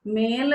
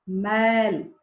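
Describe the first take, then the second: First: "मेल" with a closed, pure e; "मेल" with a narrow e vowel; wrong pronunciation. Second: "मैल" with an open ai vowel; "मैल" said carefully, ai not e; correct pronunciation. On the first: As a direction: show the mistake, "मेल" in place of open-vowelled "मैल". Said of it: "नहीं". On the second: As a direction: model "मैल", drawing out the open ai. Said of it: "मेल नहीं". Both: Shown as a demonstration.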